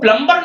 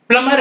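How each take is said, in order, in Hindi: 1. m के बाद b ध्वनि बोली जाती है। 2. m के बाद कोई b ध्वनि नहीं बोली जाती। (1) "वो प्लम्बर नहीं है" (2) "प्लमर है"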